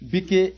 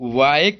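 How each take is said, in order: First: The final e is sounded as an extra syllable. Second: The final e is silent, with one syllable. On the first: The speaker calls it wrong. "ऐसे नहीं पढ़ेंगे" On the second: The speaker calls it right. "Last में जो ई होता है भैया वो silent होता है"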